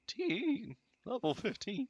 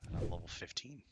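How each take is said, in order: First: Voice cracking. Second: Said in the usual way. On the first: Real, not acted. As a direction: voice cracks up much higher. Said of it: "My voice cracking". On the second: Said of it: "I sound like I'm fucking fifteen".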